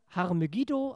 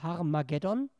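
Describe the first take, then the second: First: The name ends with the sounds 'giddo'. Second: The name ends with the sounds 'geddon'. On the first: This is the Hebrew form of the name. "auf Hebräisch" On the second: This is the Greek form of the name. "auf Griechisch ausgesprochen"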